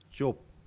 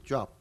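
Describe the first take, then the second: First: The vowel sounds like 'oh'. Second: The vowel sounds like 'ah'. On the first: It is the name of a person. "사람의 이름으로 할 때는 발음할 때는 어, 이제 좁" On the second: It means an occupation. "직업으로 발음할 때는 job 이렇게 발음하는 겁니다"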